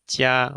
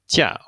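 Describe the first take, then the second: First: The pitch stays high and level throughout. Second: The pitch falls sharply from high to low. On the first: It means good. "we have in the first tone" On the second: It means vacation or leave. "in the fourth tone"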